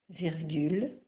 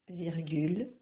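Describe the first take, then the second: Both takes have the same delivery.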